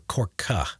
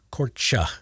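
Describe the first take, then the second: First: Korka said with a hard K sound in the middle. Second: Korcha whispered, CH as in church. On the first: Editor trying the other pronunciation, hard K. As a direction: try Korka, K in place of CH. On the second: Editor testing a place name under his breath, whispered. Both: Shown as a demonstration. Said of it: "I've heard two different pronunciations".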